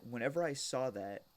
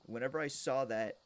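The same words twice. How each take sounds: The two takes are said the same way.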